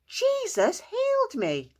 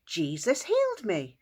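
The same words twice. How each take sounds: First: High, loud, slow joyful shout; excited shout. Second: Said in the usual way. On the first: Acted. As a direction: stretch out the shout with joy. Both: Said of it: "he ran into town shouting".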